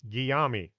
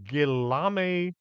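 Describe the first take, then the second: First: The name is pronounced the Spanish way. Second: The name is pronounced the Italian way. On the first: The speaker calls it wrong. "I was about to pronounce it as if it was Spanish" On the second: The speaker calls it right. "which it's not, it's Italian"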